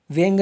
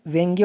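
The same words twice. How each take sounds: First: व्यंग ending on g, no final ya; wrong form. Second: व्यंग्य with a sounded final "gye"; correct form. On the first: Teacher rejecting the wrong word, व्यंग without final syllable. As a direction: cut व्यंग off at the g. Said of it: "व्यंग नहीं होता है". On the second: Teacher giving the correct word, व्यंग्य with final syllable. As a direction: add the ya ending to व्यंग्य. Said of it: "व्यंग्य होता है". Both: Shown as a demonstration.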